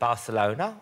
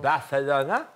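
First: The middle sound is a plain s. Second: The middle sound is a lisped th.

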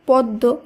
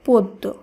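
First: The first vowel is an open 'a' sound. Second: The first vowel is a rounded 'o' sound. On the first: The speaker calls it wrong. "বানান হিসাবে শব্দটির উচ্চারণ হওয়ার কথা পদ্ম, কিন্তু এটি হবে না" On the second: The speaker calls it right. "এর শুদ্ধ উচ্চারণ হবে পদ্ম"

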